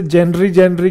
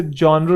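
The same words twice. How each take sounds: First: "जेनरी" said as JEN-ree, ending in ee; mistaken childhood pronunciation. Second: "जॉनर" said as JON-er, open o first; correct pronunciation. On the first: Retold or imitated. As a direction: say "जेनरी" with an e first, ee last. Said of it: "ये जेनरी नहीं होता". ("जेनरी" का बचपन वाला गलत उच्चारण, जेन-री) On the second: Shown as a demonstration. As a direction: say "जॉनर" with an o, no ee ending. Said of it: "इसे जॉनर कहते हैं". ("जॉनर" का सही उच्चारण, जॉ-नर)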